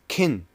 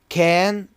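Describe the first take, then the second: First: The word is said in a reduced form. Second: The word is said in its full form.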